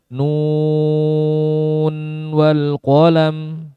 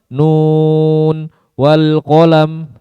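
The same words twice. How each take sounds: First: The words run together with no break. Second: There is a short break after the first word. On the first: The speaker calls it right. "Tanpa ada jeda" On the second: The speaker calls it wrong. "itu seperti saktah"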